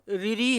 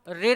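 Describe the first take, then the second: First: The letter is said as two syllables, riri. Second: The letter is said with a final r, rir. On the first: "इसको रिरी नहीं बोला जाता है" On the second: "इसको रिर नहीं कहा जाता है"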